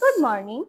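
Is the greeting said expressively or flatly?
expressively. The greeting is said warmly, with lively expression. The speaker calls it right. "এক্সপ্রেশনের সাথে সুন্দর করে বলতে হবে"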